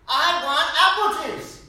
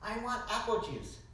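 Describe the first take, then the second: First: Put-on loud, high, slow toddler whine; hammed-up child demanding "apple juice"; mock toddler insisting at full volume. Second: A hint of a whiny three-year-old, higher; light childish ask for "apple juice"; lightly voiced toddler asking. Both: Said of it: "he's like".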